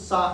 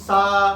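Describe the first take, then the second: First: The syllable is said with little force. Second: The syllable is said with strong force. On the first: The speaker calls it wrong. "सा नहीं" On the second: The speaker calls it right. "सा पे ज्यादा जोर दो"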